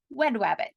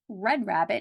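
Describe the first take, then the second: First: The first word starts with a W sound. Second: The first word starts with an R sound. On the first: The speaker calls it wrong. "it might be" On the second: The speaker calls it right. "it might not be"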